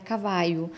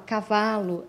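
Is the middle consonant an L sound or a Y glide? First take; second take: Y glide; L sound. First: The L is replaced by a Y glide. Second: The middle consonant is a clear L sound. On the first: This is how the child says it. "era cavaio" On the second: This is the word as it is meant. "se ele fosse falar cavalo"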